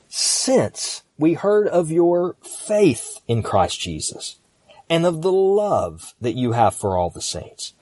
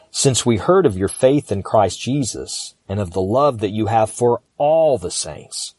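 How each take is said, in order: First: "since" high and isolated, "faith" and "love" drawn out; stress on since and love. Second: "faith" punched, "all" stretched out before the saints; stress on faith and all. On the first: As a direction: set "since" apart, then stretch "faith" and "love". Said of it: "I'm gonna do it again". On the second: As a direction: run through "since", then hit "faith" and "all". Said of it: "I'm gonna emphasize different words". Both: Shown as a demonstration.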